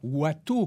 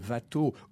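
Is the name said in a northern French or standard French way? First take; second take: northern French; standard French. First: The name is said in northern French. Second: The name is said in standard French.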